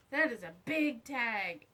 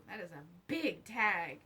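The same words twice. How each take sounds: The two takes are said the same way.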